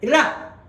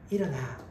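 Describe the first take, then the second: First: It is said harshly, like a scolding. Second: It is said gently, like an encouragement.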